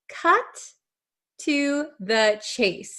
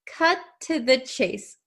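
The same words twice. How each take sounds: First: It is slow, with both T sounds fully said. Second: It is fast, with the T sounds merged together. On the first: "If we say it very, very slowly" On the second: "See how my mouth barely opens"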